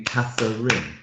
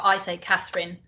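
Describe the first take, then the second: First: Catherine said in three syllables, middle E sounded. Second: Catherine said in two syllables, middle vowel swallowed. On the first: Host claiming the name has three syllables, Catherine in three beats. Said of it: "three syllables". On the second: Teacher showing how she says her own name, Catherine in two syllables. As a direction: Catherine with the medial E dropped. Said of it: "although I have an E in the middle". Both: Shown as a demonstration.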